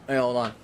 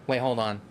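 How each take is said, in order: Both takes have the same delivery.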